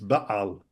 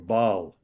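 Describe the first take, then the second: First: It has a slight catch in the throat. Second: It is said as one smooth syllable. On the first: The speaker calls it right. "It's a little little kind of constriction in there" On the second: The speaker calls it wrong. "some people would pronounce it just as one syllable"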